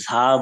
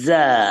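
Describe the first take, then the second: First: The first consonant is breathy, like Bengali jha. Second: The first consonant is plain, without breathiness. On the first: The speaker calls it wrong. "ঝা বলা যাবে না" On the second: The speaker calls it right. "এটাকে বলতে হবে যা"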